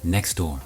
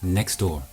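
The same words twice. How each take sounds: First: The t at the end of next is dropped. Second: The same.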